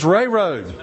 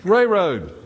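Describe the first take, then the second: First: The first word sounds like "ray". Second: The first word sounds like "ray".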